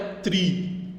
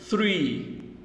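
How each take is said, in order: First: It starts with a plain T sound. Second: It starts with a soft TH sound. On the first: The speaker calls it wrong. "aqui não é tri" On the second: The speaker calls it right. "Tem esse som de T H aqui"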